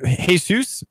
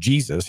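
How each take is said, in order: First: The name is pronounced with Spanish sounds. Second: The name is pronounced with English sounds.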